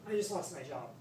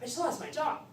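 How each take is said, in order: First: It is said in a sad, downcast tone. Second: It is said in an excited, upbeat tone.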